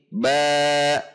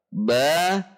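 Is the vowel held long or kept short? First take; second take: long; short. First: The vowel is drawn out long. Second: The vowel is kept short. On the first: The speaker calls it wrong. "tidak memanjangkan bacaan seperti ba bi bu" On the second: The speaker calls it right. "Jadi harus konsisten satu harokat"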